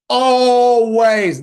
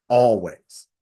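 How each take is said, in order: First: Always, high and loud, held long; emphatic repeat. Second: Said in the usual way. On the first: Retold or imitated. Stressing to the audience that his mom was always armed, with a loud, high Always. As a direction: hit Always hard the second time.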